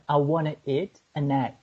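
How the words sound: It is said in an attempted American accent. "Kiki speaking an American accent"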